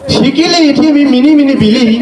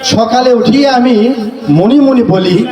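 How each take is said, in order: First: Nearly every vowel is changed to i. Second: The words keep their usual mixed vowels. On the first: This is how people in another country supposedly talk. "ওই কবিতাটা ওদের ওইরকম ভাবে লিখলাম" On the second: This is the normal way the poem goes. "বাংলাদেশের সঠিকটাই বলি আগে"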